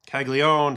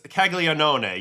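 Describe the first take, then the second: First: The name is said with a syllable dropped. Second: The name is said with all its syllables. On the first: The speaker calls it wrong. "it seems like it's sticking" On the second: The speaker calls it right. "it's Caglianone, yes"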